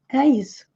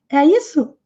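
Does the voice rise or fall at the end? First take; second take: fall; rise. First: It is said as a confirmation. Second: It is asked as a question.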